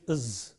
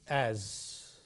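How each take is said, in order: First: The vowel is reduced and weak. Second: The vowel is full and clear. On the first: "weak form is is" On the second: "the strong form is as"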